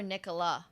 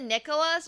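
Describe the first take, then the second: First: Nicola, ending on an open "ah"; without final S. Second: Nicholas, ending on a clear S; with final S. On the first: Streamer checking a player's name, Nicola with no S. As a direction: drop the S and end Nicola on a vowel. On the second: Streamer checking a player's name, Nicholas with its S sounded. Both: Shown as a demonstration. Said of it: "I've pronounced it different every single time".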